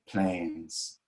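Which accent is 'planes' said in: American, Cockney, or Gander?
Gander. The vowel is one pure, unchanging sound. "we use the pure A. So we say planes"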